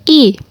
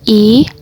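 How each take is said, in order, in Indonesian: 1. Vokal ini memakai nada keempat. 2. Vokal ini memakai nada kedua. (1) "nada keempat" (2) "nada kedua"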